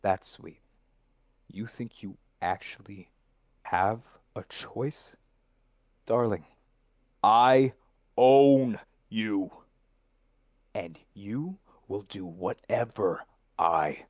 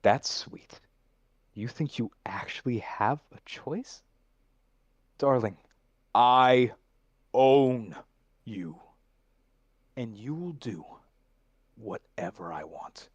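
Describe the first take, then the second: First: Whatever I, still leaning on I; stress on the final I. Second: I own you punched, then whatever I want dropped to a whisper; menacing contract villain. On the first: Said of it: "Take the emphasis off of your second "I". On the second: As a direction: close like a whispered threat of ownership. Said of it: "There it is". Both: Shown as a demonstration.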